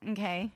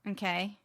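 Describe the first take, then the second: First: It sounds cold and detached. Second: It sounds fairly warm and engaged.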